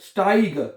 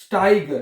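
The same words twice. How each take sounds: First: The vowel sounds like 'eye'. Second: The vowel sounds like 'eye'.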